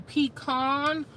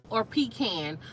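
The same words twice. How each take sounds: First: "Pecan" said as pee-KAHN, open ah in the second syllable; pecan said one way. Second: "pecan" said as pee-KAN, flat a like in cat; pecan said the other way. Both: Shown as a demonstration. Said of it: "do y'all say pecan or do you guys say pecan".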